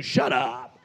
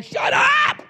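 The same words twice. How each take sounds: First: Low-pitched, sassy dismissal; with attitude. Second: Very high, loud shriek; yelled outburst. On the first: Shown as a demonstration. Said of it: "just say it with an attitude". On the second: Acted. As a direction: yell it like a public outburst. Imagined outburst in a store.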